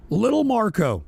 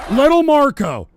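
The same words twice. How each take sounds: First: Said in the usual way. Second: Mocking Trump. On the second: Mocking Trump's nickname for Rubio.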